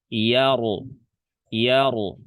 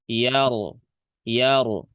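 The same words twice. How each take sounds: The two takes are said the same way.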